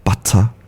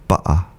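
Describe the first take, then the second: First: The middle t is a clear t sound. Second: The middle t is replaced by a glottal stop. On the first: "producing that clear t" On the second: "use that glottal stop"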